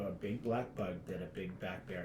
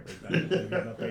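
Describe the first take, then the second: First: It is said at a moderate pace. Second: It is said fast.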